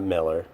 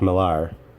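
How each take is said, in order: First: The second syllable sounds like 'er'. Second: The second syllable sounds like 'ar'. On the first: The speaker calls it wrong. "not Miller" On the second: The speaker calls it right. "because your name is spelled A R, that it's pronounced Millar"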